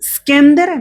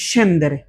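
First: The word begins with an 'sk' sound. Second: The word begins with an 'sh' sound. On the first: The speaker calls it wrong. "স্কেন্দেরে নাকি সেন্দেরে?" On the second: The speaker calls it right. "সেন্দেরে, কারণ এই যে দেখেন এস"

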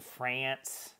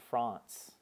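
First: The vowel is a flat American 'a' sound. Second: The vowel is a broad British 'ah' sound. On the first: The speaker calls it right. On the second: The speaker calls it wrong.

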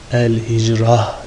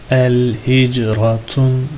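First: The word ends with a soft h sound. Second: The word ends with a full -tun ending. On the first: "El hicrah diye okunur" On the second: "El hicratun diye de bilirsin"

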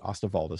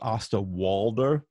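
First: The name is said in its native-style pronunciation. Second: The name is read as it looks in English. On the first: "but he pronounced it Osterwalder" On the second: "I guess it's spelled Osterwalder"

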